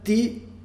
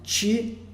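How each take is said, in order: First: The t is dental, tongue at the teeth. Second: The t is palatal, like a soft ch. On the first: "ti é dental" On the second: "ti é palatal"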